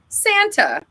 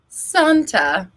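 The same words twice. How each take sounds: First: It is said with an American accent. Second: It is said with a British accent.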